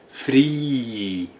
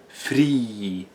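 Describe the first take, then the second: First: It is said slowly and drawn out. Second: It is said at normal speed.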